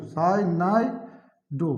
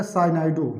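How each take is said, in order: First: साइनाइडो very slow, pause before the last syllable; drawn-out term. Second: Said in the usual way. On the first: Shown as a demonstration. Teacher repeating the ligand name for students, slowly drawn out. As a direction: stretch साइनाइडो, each syllable apart. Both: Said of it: "इधर क्या हो जाएगा?".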